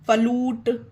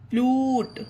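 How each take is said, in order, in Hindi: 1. "f" और "l" के बीच एक स्वर डाला जाता है। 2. "f" और "l" एक साथ जुड़े हैं।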